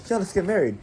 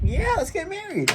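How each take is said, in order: First: Badly faked British accent, high; high, mock British girl voice. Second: Very high-pitched squealed acceptance; exaggerated high voice of excited girls; eager British girls. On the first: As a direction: attempt a British girl's accent. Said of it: "they were British, she was like". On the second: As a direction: squeal it in a high mock-girlish voice. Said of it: "they were both like".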